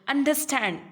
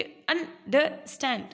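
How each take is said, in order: First: Said in the usual way. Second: अंडरस्टैंड slowly as UN... DER... STAND; pauses between syllables. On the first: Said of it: "एक ही flow में आप बोल रहे हो।". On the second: Shown as a demonstration. Teacher showing the stops in the middle of अंडरस्टैंड, broken up. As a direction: stop briefly inside अंडरस्टैंड after each part. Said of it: "रुक रहे हो ना बीच में".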